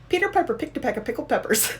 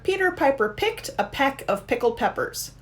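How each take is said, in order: First: It is said at a quicker pace. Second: It is said at a slower pace.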